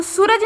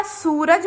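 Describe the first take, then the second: First: सूरज with a short, quick "su". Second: सूरज with सू stretched out as "soo"; long u. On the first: Teacher showing pupils the misspelt word, सूरज with short उ. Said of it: "सूरज नहीं होता". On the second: Teacher correcting the misspelt word, सूरज with long ऊ. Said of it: "सूरज होता है". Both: Shown as a demonstration.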